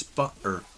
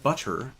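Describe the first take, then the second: First: "butter" with the middle T left out; dropped T. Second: "butter" with a crisp middle T; clearly pronounced T. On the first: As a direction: swallow the T in "butter", hometown style. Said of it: "it's butter". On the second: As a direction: sound the T in "butter" fully. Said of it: "It's not butter". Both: Shown as a demonstration.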